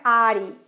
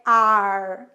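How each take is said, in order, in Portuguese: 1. A palavra termina com som de vogal. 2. A palavra termina com som de R forte. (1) "não é are ... não é o som final de E" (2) "é are ... bem caipira mesmo ... com esse som final de R"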